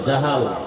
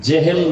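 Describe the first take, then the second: First: The first vowel sounds like 'a'. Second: The first vowel sounds like 'e'. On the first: The speaker calls it right. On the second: The speaker calls it wrong. "জেহেল না"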